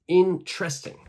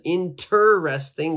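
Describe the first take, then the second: First: The vowel after 'int' is dropped. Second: The vowel after 'int' is clearly heard. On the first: The speaker calls it right. "It's going to be interesting" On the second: The speaker calls it wrong. "we don't say that"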